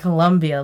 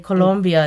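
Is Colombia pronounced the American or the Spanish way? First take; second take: American; Spanish. First: It is pronounced the American way. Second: It is pronounced the Spanish way. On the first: The speaker calls it wrong. "like us Americans" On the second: The speaker calls it right. "I should say Colombia instead of"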